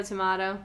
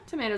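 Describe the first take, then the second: First: "tomato" with an AH in the middle; British-style "tomato", middle like "ma"; tomah-to. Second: "tomato" with an AY in the middle; American "tomato", rhyming with potato; tomay-to. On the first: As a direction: say "tomato" as tuh-MAH-toe. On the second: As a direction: say "tomato" as tuh-MAY-toe. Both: Shown as a demonstration. Contrasting two pronunciations of tomato.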